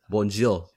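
It is said the native way, with a French accent. The speaker calls it right. "how they normally say it"

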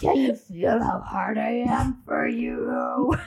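It is said in a put-on Wolf Gunner voice.

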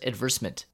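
It is said with a British pronunciation. "she says advertisement"

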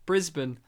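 The name is said the Australian way. This is how locals say the city name. "one of the cities in Australia is Brisbane"

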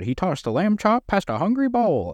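It is said in an old-time radio announcer voice.

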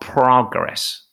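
It is said with an American pronunciation.

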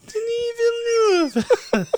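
It is said in a high-pitched voice.

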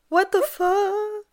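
It is said as a frightened whimper.

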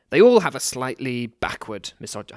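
It is said in a put-on character voice. It sounds like a quoted or acted persona. The speaker calls it wrong. "I continued in that voice"

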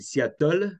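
It is said with a French accent.

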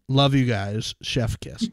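It is read out flatly.

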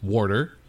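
It is said in a Saint Louis accent.

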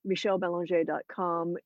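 The surname is pronounced with French sounds. "if you are French or Canadian"

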